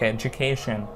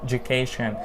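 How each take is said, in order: Both takes have the same delivery.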